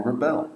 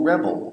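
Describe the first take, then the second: First: "rebel" stressed on the second syllable, re-BEL. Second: "rebel" stressed on the first syllable, REB-el. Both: Shown as a demonstration. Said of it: "it even changes the meaning of the intended word".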